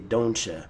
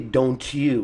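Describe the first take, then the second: First: The t and y sounds blend into ch. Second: The t and y sounds are said separately. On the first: The speaker calls it right. "We say" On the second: The speaker calls it wrong. "We don't say"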